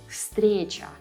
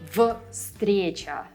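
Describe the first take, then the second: First: The first consonant is a voiceless F. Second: The first consonant is a voiced V. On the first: The speaker calls it right. "That's why you say" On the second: The speaker calls it wrong. "It would be difficult to say"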